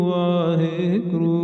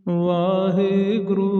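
Both takes have the same delivery.

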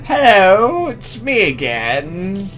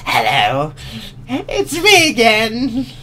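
First: It is said in a plain voice. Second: It is said in a bubbly voice.

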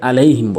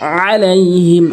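First: The throaty ain sound is left out. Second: The throaty ain sound is clearly pronounced. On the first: The speaker calls it wrong. "এখানে অনেকে আলাইহিম বলে" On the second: The speaker calls it right. "আইনের উচ্চারণ করবেন"

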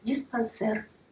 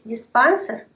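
First: The stress falls on the last syllable. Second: The stress falls before the last syllable. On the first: The speaker calls it right. "ударение всегда ставится на последний слог" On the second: The speaker calls it wrong. "Говорить «диспансер» неправильно"

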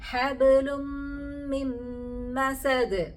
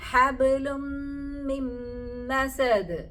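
No difference in how they are said.

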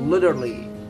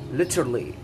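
First: The word is said with an American pronunciation. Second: The word is said without an American pronunciation.

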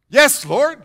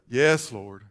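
First: It is said quickly and eagerly. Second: It is said slowly and reluctantly. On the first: The speaker agrees willingly at once. "You don't say" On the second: The speaker agrees only after resisting. "You say"

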